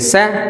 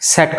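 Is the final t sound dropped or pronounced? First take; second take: dropped; pronounced. First: The final t sound is dropped. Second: The final t sound is clearly pronounced.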